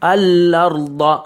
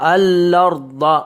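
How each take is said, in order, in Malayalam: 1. L ഇരട്ടിച്ച് സ്വരത്തിലേക്ക് ഒഴുകുന്നു. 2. L ഇരട്ടിച്ച് സ്വരത്തിലേക്ക് ഒഴുകുന്നു.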